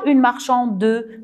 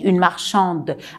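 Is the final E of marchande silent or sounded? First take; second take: sounded; silent. First: The final E is pronounced as a vowel. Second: The word ends on the D sound. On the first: The speaker calls it wrong. "Je ne dis pas" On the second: The speaker calls it right. "je prononce le D seulement"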